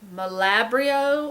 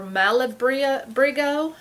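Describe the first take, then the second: First: The word is said without a g sound. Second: The word is said with a g sound.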